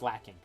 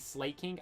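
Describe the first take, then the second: First: The first syllable sounds like 'slack'. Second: The first syllable sounds like 'slay'. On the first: The speaker calls it right. "I'm pretty sure it's pronounced Slacking" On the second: The speaker calls it wrong. "I used to always say Slaking"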